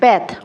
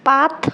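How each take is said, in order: First: The vowel is a flat 'a' as in cat. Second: The vowel is an open 'ah' sound.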